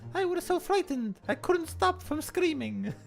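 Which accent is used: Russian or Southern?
Russian. It is spoken in a Russian accent. "we'll do the Russian voice"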